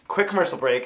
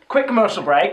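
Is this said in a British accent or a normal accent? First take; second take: normal; British. First: It is said in the speaker's normal accent. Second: It is said in a British accent.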